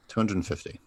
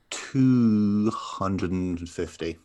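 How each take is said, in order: First: Said in the usual way. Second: Slow dramatic reveal. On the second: Shown as a demonstration.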